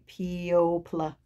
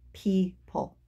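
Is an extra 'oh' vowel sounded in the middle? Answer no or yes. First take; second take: yes; no. First: An 'oh' vowel is sounded before the final 'pl'. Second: No 'oh' vowel is sounded; it is 'pee-pul'. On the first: The speaker calls it wrong. "Why doesn't it say pl at the end" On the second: The speaker calls it right. "the pronunciation is people"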